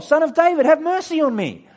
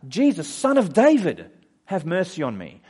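First: High, full-force shout; loud, high-pitched cry for mercy; shouting all the more. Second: Raised, higher-pitched call that eases off; loud acted cry for attention; yelling out. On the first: Acted. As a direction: shout desperately to be heard over everyone. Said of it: "He shouted all the more". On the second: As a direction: call out for help over a crowd. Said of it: "And he yells out".

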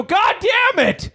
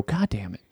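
First: Very high, slow, drawn-out falsetto curse; hammed-up high exasperation; mock wail. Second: Soft unvoiced muttered curse under breath; whispered God damn it. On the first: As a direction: stretch the curse into a squeal. Retold frustration, third delay. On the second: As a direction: hiss a defeated curse. Retold frustration at delay.

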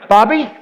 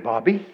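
First: Raised, insistent questioning call; Lord calling louder. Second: Low, soft questioning call; Lord calling. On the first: The Lord calling Bobby a second time, raised and insistent. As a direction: call the name higher and louder to get attention. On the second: The Lord calling Bobby the first time, low and soft. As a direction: call the name gently, pitched down. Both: Acted. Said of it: "the Lord told me the other day, he said".

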